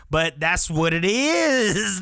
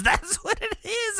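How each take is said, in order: First: Said in the usual way. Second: High and giggling; laughing. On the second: Real, not acted. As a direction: laugh through the repeat.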